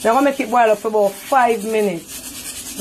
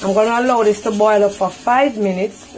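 First: Said in the usual way. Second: Careful standard English over a Jamaican accent. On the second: Real, not acted. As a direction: switch from Patois into careful English. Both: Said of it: "In my English voice".

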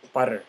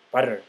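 First: "butter" coming out oddly, drawn out; funny-sounding butter. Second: Said in the usual way. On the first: Real, not acted. Food vlogger naming the toppings, funny-sounding "butter". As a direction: say "butter" slowly, a bit off. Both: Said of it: "I sounded funny when I said butter".

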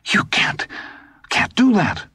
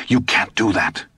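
First: Disbelief breaking high; stammer, then climb in pitch; rising disbelief. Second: Stunned. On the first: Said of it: "his voice suddenly rose". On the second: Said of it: "in a stunned and unbelieving voice". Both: A narrator's reading.

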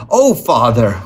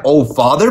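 First: Reproachful exclamation with a falling end; mild cry of disappointment. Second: Indignant quoting back, rising at the end; higher, offended echo with a questioning lift; demanding echo. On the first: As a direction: exclaim it in dismay at a parent, tune falling. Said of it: "Wendy exclaimed". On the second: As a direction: throw the words back as a question. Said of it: "Mister Darling demanded". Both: A narrator's reading.

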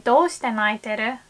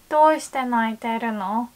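First: A plain, textbook reading with no emotion behind it; textbook flat. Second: Warm and caring. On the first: Asking a crying friend why, in a flat textbook tone. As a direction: read "Doushite naiteru?" like a dry textbook line. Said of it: "it just doesn't sound very warm at all". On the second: Asking a crying friend what is wrong, with warm concern. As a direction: ask "Doushite naiteru no?" as if you really want to help. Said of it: "So you want to say". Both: Shown as a demonstration.

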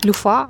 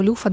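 First: "Люфа" stressed on the first syllable, ЛЮ. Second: "люфа" stressed on the final syllable, ФА; stress on last syllable. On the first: Vlogger unsure of the word tries "Люфа" with stress on ЛЮ. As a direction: lean on ЛЮ in "Люфа". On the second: Vlogger unsure of the word tries "люфа" with stress on ФА. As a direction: lean on ФА in "люфа". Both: Shown as a demonstration. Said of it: "не знаю навіть наголосу".

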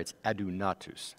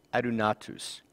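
First: Adunatus repeated quickly, quieter, as a correction; corrected adunatus. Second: Adunatus said ah-doo-NAH-toos; first try at adunatus. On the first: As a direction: adunatus said again, more carefully. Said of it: "That's a little bit better pronunciation". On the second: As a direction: adunatus with the stress on the third syllable, first attempt. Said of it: "I'm sorry, it's adunatus". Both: Shown as a demonstration.

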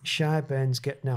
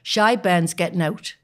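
First: Attempted Geordie. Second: Slow, drawn-out Geordie saying; Geordie demo. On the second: Wife coaching Lincoln, showing the Geordie way, slowly. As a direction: spell it out slowly in a Geordie accent. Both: Shown as a demonstration. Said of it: "say it in Geordie".

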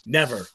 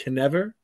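First: Said in the usual way. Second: "Knever" said with a sounded K before never; a deliberate K-n onset on "Knever"; title pronounced with a K. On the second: Shown as a demonstration. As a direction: start "Knever" on a hard K sound. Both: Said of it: "that's how you pronounce it".

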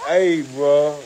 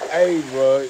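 Both takes have the same delivery.

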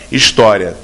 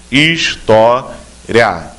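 First: Said in the usual way. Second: História said very slowly, each syllable stretched apart; drawn out syllable by syllable. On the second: Shown as a demonstration. Teacher showing candidates the syllables of História, very slow and drawn out. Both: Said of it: "três sílabas".

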